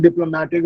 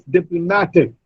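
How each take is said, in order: First: "diplomatic" said wrongly with a full LO, dip-LO-matic; weight the LO of "diplomatic"; mispronounced stress. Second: "diplomatic" said dip-lo-MAT-ic; stress on third syllable. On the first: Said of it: "It's not diplomatic". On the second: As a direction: lean on MA in "diplomatic". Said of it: "Ma, the third syllable receives the stress". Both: Shown as a demonstration.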